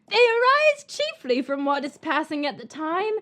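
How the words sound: It is read in a put-on Collins voice.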